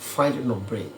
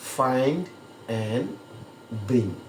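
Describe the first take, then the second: First: The middle word is reduced to a short "n". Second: The middle word is said fully as "and". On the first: The speaker calls it right. "এই অ্যান্ডটাকে নর মতো উচ্চারণ করে" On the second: The speaker calls it wrong. "বিদেশিরা find অ্যান্ড bring এইভাবে কথাটা বলবে না"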